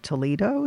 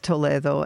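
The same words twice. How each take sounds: First: It is said with an American pronunciation. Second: It is said with a Spanish pronunciation.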